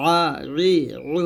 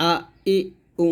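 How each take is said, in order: First: আ, ই, উ squeezed in the throat; pressed ayn. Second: আ, ই, উ unpressed, as simple vowels; distinct hamza sound. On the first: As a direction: press each vowel আ, ই, উ from a tight throat. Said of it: "চাপ দে". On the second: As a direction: keep the throat open on আ, ই, উ. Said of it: "প্রত্যেকটা উচ্চারণ আলাদা". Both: Shown as a demonstration.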